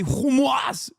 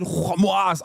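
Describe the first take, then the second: First: "Hamas" said higher, with a hard "hu" start; mock Indiana shopper saying "Hamas"; Midwest Hamas. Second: "Hamas" with a hard, harsh H. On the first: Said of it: "and you say". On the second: Retold or imitated. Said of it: "You hit the hardest "ha".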